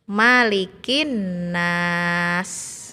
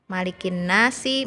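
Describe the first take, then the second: First: The last word ends on the s consonant. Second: The last word ends with a short i vowel. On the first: The recitation stops at the end of the verse. "dimatikan huruf hidupnya ini karena berhenti di akhir ayat" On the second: The recitation continues without stopping. "Yang asalnya tulisannya malikin nasi, mad asli bertemu dengan huruf hidup"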